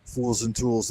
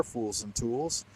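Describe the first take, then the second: First: Said in the usual way. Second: Name said softer and slowly; a soft, slowed-down echo of the name; soft slow repeat. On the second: Real, not acted. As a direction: savour the name quietly and slowly. Repeating the chat name, savouring it.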